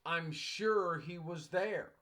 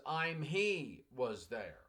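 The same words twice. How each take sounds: First: Correct sentence, slowly. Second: Slow, deliberate reading of the student's broken sentence; broken sentence read slowly. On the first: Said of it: "I knew it was supposed to be". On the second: Teacher reading a student's broken sentence to the class, slowly. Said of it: "what the student wrote was". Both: Shown as a demonstration.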